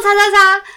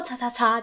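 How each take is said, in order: First: Loud, high mock yell of 叉叉叉; hammed-up yell of 叉叉叉; exaggerated shout. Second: Said in the usual way. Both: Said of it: "我没有那么激动啦".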